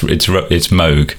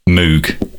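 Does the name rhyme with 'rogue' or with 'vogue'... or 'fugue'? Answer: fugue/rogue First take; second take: rogue; fugue. First: The vowel is like 'oh', rhyming with 'rogue'. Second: The vowel is read as spelled, like 'moo'. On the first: The speaker calls it right. "but it's Moog" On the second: The speaker calls it wrong. "lots of people do pronounce it Moog, yes, because it's spelled M-O-O-G"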